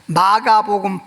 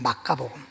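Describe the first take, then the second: First: The second syllable starts with a soft g sound. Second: The second syllable starts with a hard k sound. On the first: This is the usual translated form. "부드럽게" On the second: This follows the original-language pronunciation. "원어대로 이 발음을 하면 마카복음이에요"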